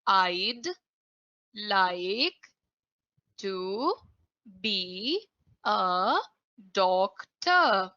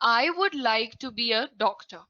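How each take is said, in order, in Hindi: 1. 'I would' छोटा होकर एक सिलेबल 'I'd' बन जाता है। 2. 'I would' दो पूरे शब्दों की तरह बोला जाता है। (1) "प्रोनाउंसिएशन सुना सबने मेरा यहां पर? मैंने बोला" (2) "अब मैंने बोला यहां पर"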